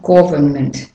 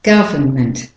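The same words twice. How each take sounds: First: Government mispronounced as GAW-vuhn-ment; government with rounded "o" first; wrong "o" vowel. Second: Government said GUV-uhn-ment, lower; Government with first vowel like "cup"; short "uh" vowel. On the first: Teacher shows the mistake, government as GAW-vuhn-ment. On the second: Teacher corrects learners, Government as GUV-uhn-ment. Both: Shown as a demonstration. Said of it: "Not government".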